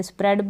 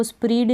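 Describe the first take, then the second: First: स्प्रेड with a short e as in bed; correct reading. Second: स्प्रीड with a long ee vowel, the wrong way; wrong reading. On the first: Teacher giving students the right reading of स्प्रेड. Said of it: "स्प्रेड पढ़ना". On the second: Teacher showing students the wrong reading of स्प्रीड. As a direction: say स्प्रीड stretching the ee as a mistake. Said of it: "अब इसको स्प्रीड नहीं पढ़ देंगे". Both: Shown as a demonstration.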